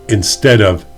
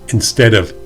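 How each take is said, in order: No difference in how they are said.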